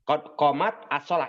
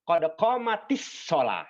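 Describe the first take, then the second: First: Qomat ends in a silent t with no added vowel. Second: Qomat joins the next word with an added 'i'. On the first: This is the underlying form before joining. "ini asalnya" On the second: This is the form read when the words are joined. "maka biar mudah, maka dibacanya jadi"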